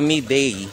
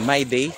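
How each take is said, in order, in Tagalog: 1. Binabasa ang pangalan sa paraang Pilipino. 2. Binabasa ang pangalan na parang English na 'my day'. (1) "Pero Miday" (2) "Ako mababasahin mo ng ano, my day"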